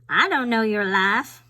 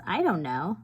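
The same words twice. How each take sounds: First: Louder, hammed-up Southern twang; playful Southern accent. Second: Said in the usual way. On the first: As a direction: throw it out in a big mock Southern accent. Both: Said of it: "a Southern accent".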